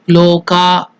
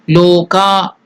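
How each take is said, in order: Both takes have the same delivery.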